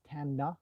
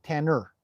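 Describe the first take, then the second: First: Tana, said TAH-nah, with a short open first vowel; right way to say it. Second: Tanner, said TAN-ner, the way viewers get it wrong. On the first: Host correcting viewers on the horse's name, Tana said carefully. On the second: Host showing chat the mistaken name, Tanner said plainly. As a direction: Tanner as the wrong version to avoid. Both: Shown as a demonstration. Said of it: "by the way, it is Tana, not Tanner".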